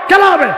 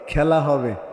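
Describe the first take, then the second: First: The phrase is said quickly and rapidly. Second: The phrase is said slowly and drawn out. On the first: "এরকম করে দ্রুত বলতো" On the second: "এটা আর এটা একটু আস্তে বলছে"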